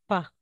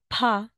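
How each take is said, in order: First: The p is said with no puff. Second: The p is said with a strong puff. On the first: "ito na po is pa" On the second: "Kapag po ito, pa"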